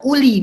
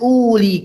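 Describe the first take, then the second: First: The first vowel is said short. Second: The first vowel is said long. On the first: The speaker calls it wrong. "antum baca uli ... Kenapa antum pendekkan?" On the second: The speaker calls it right. "bukan uli"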